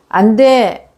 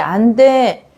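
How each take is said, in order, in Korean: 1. 단호하고 엄한 목소리로 말해요. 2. 부드럽고 다정한 목소리로 말해요. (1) "단호하게 이야기해서" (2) "이렇게 그냥 부드러운 목소리로"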